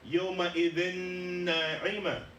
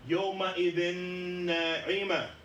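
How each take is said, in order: The two takes are said the same way.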